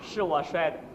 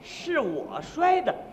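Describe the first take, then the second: First: It is said as a plain, firm statement. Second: It is drawn out with a questioning tune.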